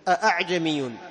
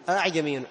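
First: The second hamza is pronounced fully and clearly. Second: The second hamza is softened, not fully pronounced. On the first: "عند من يحقق الهمزة" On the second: "عند حفص من يسهل"

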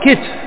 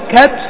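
First: First vowel i, no vowel before the last consonant. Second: Open first vowel, no vowel before the last consonant. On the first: "وإما أن تكسره" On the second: "إما أن تفتحه"

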